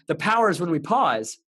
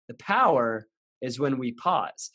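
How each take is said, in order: First: It is said straight through without pausing. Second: It is said with a pause inside it.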